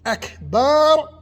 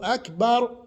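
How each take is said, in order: First: The vowel before the final r is drawn out. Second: The vowel before the final r is short. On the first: It calls God a set of drums. The speaker calls it wrong. "he elongated that aleph right there" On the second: It says God is greatest. The speaker calls it right. "you can say Allahu Akbar"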